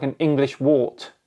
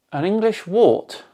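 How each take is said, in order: First: Said in the usual way. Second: ENGLISH WART questioned in a raised, higher pitch; incredulous echo. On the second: Real, not acted. Echoes the insult in disbelief.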